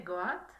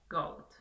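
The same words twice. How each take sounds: First: "goat" sounded as written, o and a both heard; as spelled. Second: "goat" as one syllable with an OH-oo glide, silent a; correct English pronunciation. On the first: Teacher shows learners how it is written, "goat" as spelled. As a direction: say "goat" letter by letter as Spanish spelling, go-at. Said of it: "se escribe goat, pero se dice goat". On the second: Teacher shows learners how it is said, English "goat". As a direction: say "goat" the English way, like gout with a long o. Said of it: "pero se dice goat". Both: Shown as a demonstration.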